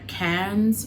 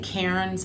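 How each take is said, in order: First: It is said imitating the local accent. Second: It is said in the speaker's own accent. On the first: "they pronounce it like like can cans" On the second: "I would say Cairns"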